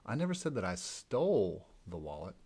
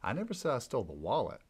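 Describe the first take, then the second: First: The stress is on the word stole. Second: The stress is on the word wallet.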